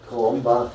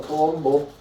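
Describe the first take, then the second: First: "Columba" said carefully, the end an open "ba"; correct name, corrected. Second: "Colombo" said as the wrong name, stress on the middle "lom"; "Colombo" like the detective, not the saint; wrong name on purpose. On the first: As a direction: give the correct "Columba" after the wrong one. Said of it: "That's important". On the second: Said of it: "Not Colombo". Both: Shown as a demonstration.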